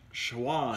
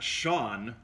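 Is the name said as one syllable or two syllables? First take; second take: two syllables; one syllable. First: The name is said with an added w sound. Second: The name is said like the plain name Sean. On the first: The speaker calls it right. "it's Schwan" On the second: The speaker calls it wrong. "it's not Sean"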